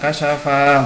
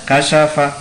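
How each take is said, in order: First: A vowel in the word is drawn out long. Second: The vowels in the word are kept short. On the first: The speaker calls it wrong. "bukan kasyafa, bukan" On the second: The speaker calls it right.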